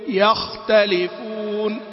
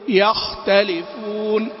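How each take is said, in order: No difference in how they are said.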